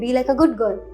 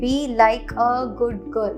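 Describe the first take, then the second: First: The words run together smoothly. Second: The words are said separately. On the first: The speaker calls it right. "We say be like a good girl" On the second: The speaker calls it wrong. "we don't say be like a good girl"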